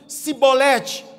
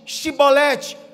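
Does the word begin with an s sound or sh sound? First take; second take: s; sh. First: The word begins with a plain s sound. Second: The word begins with a sh sound. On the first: The speaker is from another tribe. The speaker calls it wrong. "O sotaque da forma que eles diziam, denunciavam" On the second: The speaker belongs to the local group. The speaker calls it right. "a forma correta é Shibolete"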